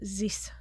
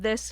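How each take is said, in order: First: It is said with a thick Latvian accent. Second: It is said with a standard English th.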